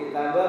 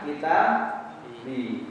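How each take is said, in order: First: The word ends with a u vowel. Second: The word ends with an i vowel. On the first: The speaker calls it wrong. "kita bu atau kita bi?" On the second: The speaker calls it right. "sesudahnya dibaca apa? Kasroh"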